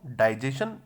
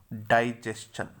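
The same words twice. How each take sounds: First: डाइजेशन said "dai-JE-shan", no "st"; common mispronunciation. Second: डाइजेशन said carefully as "dai-JES-chan"; correct pronunciation. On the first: Teacher shows what students wrongly say, डाइजेशन ending in "shan". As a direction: drop the "st-ch" and end डाइजेशन in plain "shan". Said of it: "जो कि सही नहीं होता है". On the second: Teacher sums up the right version, careful "dai-jes-chan" for डाइजेशन. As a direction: put a clear "s-ch" before the end of डाइजेशन. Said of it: "इसका सही pronunciation है". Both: Shown as a demonstration.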